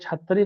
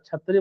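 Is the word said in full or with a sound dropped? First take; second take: full; sound dropped. First: The word is said with all its sounds. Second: The word is said with one sound dropped. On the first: "छतरी को क्या बोल देगा" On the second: "ध्वनि का लोप"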